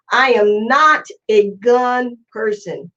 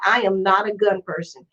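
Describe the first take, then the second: First: Slow, deliberate, leaning on "not"; stress on not. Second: Said in the usual way. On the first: Real, not acted. Telling viewers he won't push guns, with slow stress on "not". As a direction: drag it out and hit "not" so they hear it. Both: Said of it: "Hear me what I'm saying".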